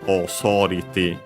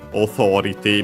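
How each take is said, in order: First: The word is said with an s sound. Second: The word is said with a th sound. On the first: "becomes the closest one, which is S" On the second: "the th sound"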